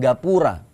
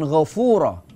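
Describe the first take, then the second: First: It starts with a hard g and has p. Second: It starts with a rasping gh and has f. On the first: "Karena orang Jawa dengan dialek alaminya" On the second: "disebut dengan Ghafura"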